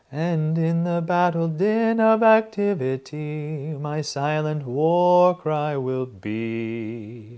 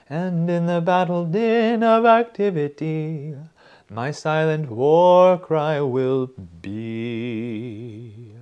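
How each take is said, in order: First: Sung slowly, higher and louder; sung phrase. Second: Sung high and loud, slow and sure; emphatic singing. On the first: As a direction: sing the descending phrase. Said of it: "descending phrase". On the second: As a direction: sing it with no doubt. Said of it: "That's very emphatic". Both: Shown as a demonstration.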